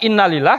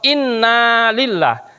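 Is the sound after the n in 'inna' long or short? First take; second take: short; long. First: The sound after the n is short. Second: The sound after the n is long. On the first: Indeed, it is for God. The speaker calls it wrong. "naknya tidak ditekan, tidak dipanjangkan" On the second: We belong to God. The speaker calls it right. "Naknya jangan lupa dipanjangkan"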